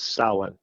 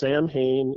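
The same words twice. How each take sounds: First: The word is said with its Irish pronunciation. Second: The word is sounded out letter by letter, as spelled. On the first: The speaker calls it right. "It's Samhain. It's Irish" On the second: The speaker calls it wrong. "it's not pronounced Samhain"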